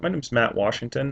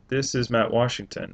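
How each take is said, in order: First: The speaker sounds happy and friendly. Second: The speaker sounds flat and unenthusiastic.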